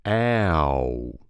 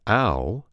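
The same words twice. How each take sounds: First: "ow" drawn out through three gliding vowels; almost a triphthong. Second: Said in the usual way. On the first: Shown as a demonstration. Coach showing the changed sound, "ow" as near triphthong. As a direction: stretch "ow" long, Alabama style. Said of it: "it becomes a triphthong almost". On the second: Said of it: "the diphthong ow becomes ow".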